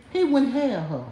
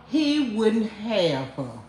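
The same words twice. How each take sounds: First: Said in the usual way. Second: Drawn out very slowly, each word weighted; slow deliberate repetition; slow emphatic repeat. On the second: Shown as a demonstration. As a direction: spell it out slowly for them. Repeating the point, slowed.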